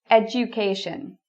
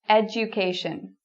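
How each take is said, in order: No difference in how they are said.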